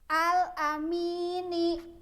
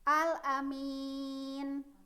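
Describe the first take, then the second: First: The word ends with a final vowel sound. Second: The word ends on a consonant, vowel dropped. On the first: The reading continues without stopping. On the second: The reading stops at this word.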